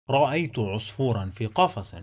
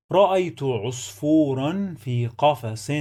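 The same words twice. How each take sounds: First: Fast, connected sentence reading; quick model reading at natural flow; fluent reading. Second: Measured reading with long vowels held; careful teaching reading. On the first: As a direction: run the words together fluently. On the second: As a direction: sound out each word clearly for learners. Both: Shown as a demonstration. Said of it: "Let's read the sentence one more time".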